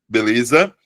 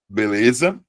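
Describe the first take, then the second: Both takes have the same delivery.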